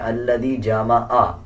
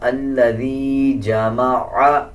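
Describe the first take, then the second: First: The last sound is a plain 'aa' vowel. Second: The last sound is a throat 'ain' consonant. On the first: The speaker calls it wrong. "आ पढ़ना गलत है" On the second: The speaker calls it right. "बल्कि आइन पढ़ा जाएगा"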